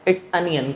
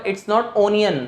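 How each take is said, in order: First: Onion as अनियन, with a; correct pronunciation. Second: Onion with o as in ऑनियन; wrong pronunciation. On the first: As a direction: open a sound in onion. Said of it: "अनियन". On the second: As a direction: say onion with round o. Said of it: "क्या पढ़ा जाता है?". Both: Shown as a demonstration.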